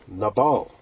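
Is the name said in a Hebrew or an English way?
Hebrew. The name is said with a Hebrew pronunciation. "What's the Hebrew word for fool?"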